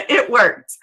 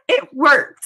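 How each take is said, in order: First: Said in the usual way. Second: A laugh breaking through the words. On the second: Real, not acted. Teacher recalling her scholarship win, laughing. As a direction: laugh it out, proud and amused.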